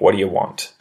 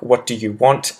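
First: The words run together in a quick, reduced form. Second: Each word is said separately and fully enunciated. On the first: "See how easy that is for me to say?" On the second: "if I was to really enunciate"

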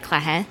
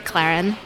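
First: It is pronounced the Haitian way. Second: It is pronounced the American way. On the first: "In Haiti or Haiti, they say Clahin" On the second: "In the U.S., we say Clarin"

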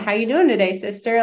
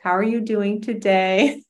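First: It is said in a brash, hearty way. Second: It is said in a gentle, kind way.

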